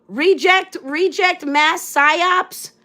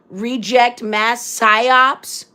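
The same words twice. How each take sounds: First: Higher, slow sing-song "reject mass psyops"; mocking the troll. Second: Slow, deadpan reading of "Reject mass psyops"; reading a troll comment. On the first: Mimicking the troll's comment to her viewers, higher and mocking. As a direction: parrot the comment back higher and slowly, ridiculing it. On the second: Retold or imitated. Reading a troll's comment aloud on her live, slow and deadpan. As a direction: drag out "Reject mass psyops" word by word, mocking. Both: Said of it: "oh, victim mentality".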